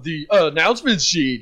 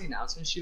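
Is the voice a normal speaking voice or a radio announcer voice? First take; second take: radio announcer; normal. First: It is said in a put-on radio announcer voice. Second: It is said in an ordinary speaking voice. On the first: Someone is showing off as if on the radio. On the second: Someone is simply asking for the sheet.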